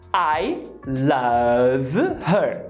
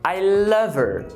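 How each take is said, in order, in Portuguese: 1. O h no início de her é pronunciado. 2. O h no início de her é omitido. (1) "Eu vou te ensinar a falar I love her" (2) "é possível que a palavra her sofra um apagamento"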